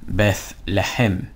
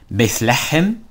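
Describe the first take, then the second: First: It is said as one word, 'Bethlehem'. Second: It is said as two words, 'bith lechem'. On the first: "The way how you, this was translated into English was Bethlehem" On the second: "That's how you say it"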